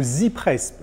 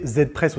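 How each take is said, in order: First: Z said "zee", as in English; "Z Press" with Z sounding like "zee"; English-style letter Z. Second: Z said "zed", as in French; "Z Press" with Z sounding like "zed"; French-style letter Z. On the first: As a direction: pronounce the Z as "zee". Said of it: "lorsque je dis Z". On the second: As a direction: pronounce the Z as "zed". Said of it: "Ça pourrait se prononcer". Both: Shown as a demonstration.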